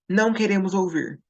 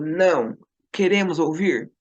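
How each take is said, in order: First: There is no pause after "não". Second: There is a pause after "não". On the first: The speakers refuse to listen. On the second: The speakers changed their minds and want to listen.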